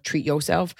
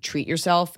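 First: "yourself" said as "yo'self", r dropped; slangy pronunciation. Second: Said in the usual way. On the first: Shown as a demonstration. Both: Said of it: "it's even worth".

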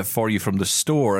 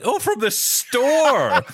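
First: Said in the usual way. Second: Imitating wife's teasing, high and drawn out; mock astonished teasing. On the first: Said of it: "affecting an accent". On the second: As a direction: mimic her mocking the word, much higher and slower. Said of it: "you've become all British".

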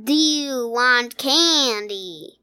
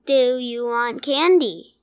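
First: Slow, drawn-out southern-ish drawl; lazily drawled monster voice; Candyman. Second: Lightly jittering bee-made voice; a hint of buzzing wobble in the words; halting, almost robotic monster impression; Candyman. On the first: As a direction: stretch every word into a creepy candy offer. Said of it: "an impression of this voice". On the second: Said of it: "kind of a jittering in his voice". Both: Shown as a demonstration.

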